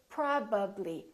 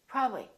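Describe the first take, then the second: First: Each sound is clearly made with full lip closure. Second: Sounds are cut short and the lips barely move. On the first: The speaker calls it right. "Fully move your lips and fully pronounce each sound" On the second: The speaker calls it wrong. "don't take any shortcuts. Don't say probably"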